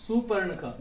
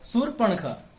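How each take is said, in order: First: सुपर्णखा said as the common wrong form; mistaken pronunciation. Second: शूर्पणखा with long ऊ and र्प cluster; correct pronunciation. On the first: Teacher shows how students wrongly say it. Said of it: "इसका उच्चारण हम कुछ इस प्रकार करते हैं". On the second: Teacher gives the correct name, clear pronunciation. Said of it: "ये क्या होता है?". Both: Shown as a demonstration.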